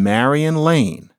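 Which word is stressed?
Lane. The stress falls on the word Lane. The speaker calls it right. "it was on Marion Lane"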